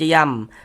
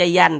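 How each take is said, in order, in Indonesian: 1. Suku kata itu diakhiri dengan bunyi m. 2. Suku kata itu diakhiri dengan bunyi n. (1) "tapi dibaca yam" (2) "jangan dibaca yan"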